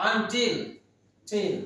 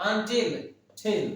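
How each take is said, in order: The two takes are said the same way.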